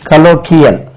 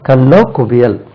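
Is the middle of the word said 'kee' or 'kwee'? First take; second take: kee; kwee. First: The middle is said with a plain 'k' sound. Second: The middle is said with a 'kw' sound. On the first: The speaker calls it wrong. "அது கலோக்கியல் சொன்னா கலோக்கியல்ங்காங்க" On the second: The speaker calls it right. "இதுக்கு உச்சரிப்பு பாருங்க"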